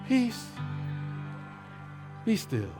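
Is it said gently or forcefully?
gently. It is said softly and calmly, with a sigh.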